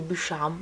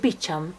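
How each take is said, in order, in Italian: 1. Il nome si pronuncia con una pronuncia francese. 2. Il nome si pronuncia con una pronuncia inglese. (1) "lo ripete con una pronuncia francese" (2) "lei dice Beecham"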